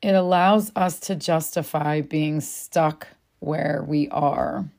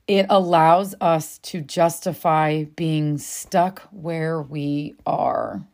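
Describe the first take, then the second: First: Repeated slowly and lower. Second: Slow and weighty. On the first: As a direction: say it again, slowly, so it sinks in. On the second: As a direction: let each word drop slowly. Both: Shown as a demonstration. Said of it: "Let that land a second".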